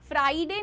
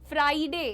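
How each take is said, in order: The two takes are said the same way.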